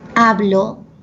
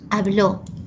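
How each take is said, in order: First: The stress is on the first syllable. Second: The stress is on the last syllable. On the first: I speak. "hablo es grave" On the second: He or she spoke. "habló sería aguda"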